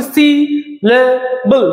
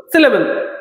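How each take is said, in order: First: সিলেবল in three separated slow beats, সি, লে, বল; syllable by syllable. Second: Said in the usual way. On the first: Shown as a demonstration. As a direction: say সিলেবল in three distinct parts. (তিন ভাগে আলাদা করে সিলেবল) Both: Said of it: "তিন ভাবে উচ্চারণ করছি".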